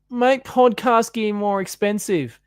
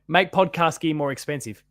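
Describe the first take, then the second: First: It is read in an exaggerated whiny voice. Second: It is read in a plain, normal voice. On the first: The speaker calls it right. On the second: The speaker calls it wrong.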